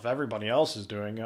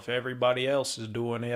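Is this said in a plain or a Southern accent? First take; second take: plain; Southern. First: It is said in the speaker's ordinary accent. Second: It is said in a put-on Southern accent.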